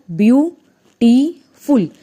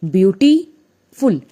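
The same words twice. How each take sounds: First: ब्यूटीफुल in three loud, slow beats, ब्यू, टी, फुल; ब्यूटीफुल very slowly, each of three syllables apart. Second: ब्यूटीफुल slowly in two parts, ब्यूटी, then फुल; ब्यूटीफुल drawn out as two chunks, pause before फुल; split in two. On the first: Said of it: "ब्यूटीफुल को हम कैसे बोल रहे हैं". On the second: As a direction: break ब्यूटीफुल after ब्यूटी, slow and loud. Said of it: "अब ब्यूटी एक आवाज़ आ रही है". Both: Shown as a demonstration.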